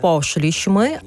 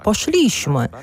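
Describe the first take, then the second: First: Пошліśmy stressed on the first syllable, POSH-lish-my; correct stress. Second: Пошліśmy stressed on the second-last syllable, posh-LISH-my; wrong stress. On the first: Teacher showing listeners the correct form, пошліśmy stressed on the first syllable. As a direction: hit the opening syllable of пошліśmy. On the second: Teacher showing the mistake, пошліśmy stressed on the middle syllable. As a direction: push пошліśmy onto its middle syllable, higher. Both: Shown as a demonstration. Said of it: "а не".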